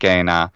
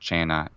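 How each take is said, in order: First: It uses the restored classical Latin pronunciation. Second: It uses the ecclesiastical Italian-style Latin pronunciation. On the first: "restored classical pronunciation of Latin, which would say" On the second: "instead of"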